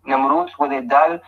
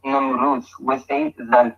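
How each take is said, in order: First: Namrud and dal with hard d sounds; d stops in Namrud and dal. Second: Namrud ending in dh, then dhal with dh as in "this"; tongue between teeth for the d of Namrud and dal. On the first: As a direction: say Namrud with a plain d, then dal. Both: Shown as a demonstration. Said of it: "We find both".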